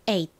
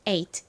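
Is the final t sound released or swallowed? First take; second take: swallowed; released. First: The final t is swallowed and unreleased. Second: The final t is clearly released.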